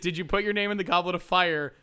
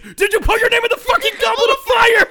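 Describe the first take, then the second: First: The question is asked in a calm voice. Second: The question is asked in a furious voice.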